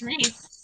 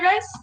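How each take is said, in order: First: The vowel sounds like 'ee', rhyming with 'piece'. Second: The vowel sounds like 'eye', rhyming with 'ice'. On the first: The speaker calls it right. "It's Reese" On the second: The speaker calls it wrong. "I keep saying Rice because that's how I pronounced it in a book"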